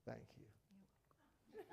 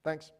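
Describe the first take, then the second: First: Soft whispered heartfelt thank you; tender, deliberate whispered thanks; sincere whisper. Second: A quick throwaway thanks; offhand thanks. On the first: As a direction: look them in the eye and breathe it. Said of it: "look right at them and say". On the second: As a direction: toss it off without looking up. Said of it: "Don't do it on the fly". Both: Shown as a demonstration.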